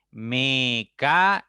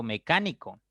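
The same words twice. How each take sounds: First: "Mecánico" slow and loud as me - ca - ni - co; syllable by syllable. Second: Said in the usual way. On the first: Shown as a demonstration. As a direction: break "Mecánico" into four separate beats, me, ca, ni, co. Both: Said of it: "Tiene cuatro sílabas".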